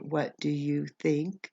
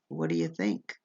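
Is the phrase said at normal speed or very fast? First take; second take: normal; very fast. First: The phrase is said at a normal pace. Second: The phrase is said very fast and run together. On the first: "for what do you think?" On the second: "sometimes we speak even faster"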